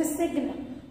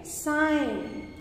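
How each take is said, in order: First: "sign" with a hard G, ending in "nuh"; G wrongly sounded. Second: Said in the usual way. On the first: Shown as a demonstration. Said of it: "You won't say sign". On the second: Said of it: "You say sign".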